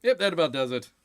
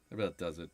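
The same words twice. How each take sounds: First: Said in the usual way. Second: That about does it muttered low and soft; quiet echo. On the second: Shown as a demonstration. Echoing his own line to himself, low and soft. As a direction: drop it to an aside.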